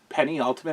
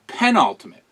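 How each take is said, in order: First: It begins with the sounds of 'penny'. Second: It begins with a short 'pen' sound. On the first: The speaker calls it wrong. "Why did I say penny ultimate?" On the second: The speaker calls it right. "Not the penny"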